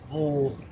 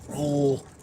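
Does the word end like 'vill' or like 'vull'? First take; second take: vull; vull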